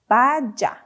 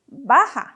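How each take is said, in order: First: The middle consonant is not an h sound. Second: The middle consonant is an h sound. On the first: The speaker calls it wrong. "that word is not pronounced as vaya" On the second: The speaker calls it right. "the J has an H sound, okay? So we say baja"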